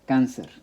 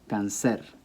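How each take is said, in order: First: The stress is on the first syllable. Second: The stress is on the last syllable. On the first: The speaker calls it right. "an unnatural stress" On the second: The speaker calls it wrong. "it should be pronounced cáncer"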